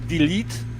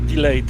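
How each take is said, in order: First: The second syllable has an 'ee' vowel. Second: The second syllable has an 'ay' vowel. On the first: The speaker calls it right. "Instead of saying like delete" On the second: The speaker calls it wrong. "they are saying like delayed"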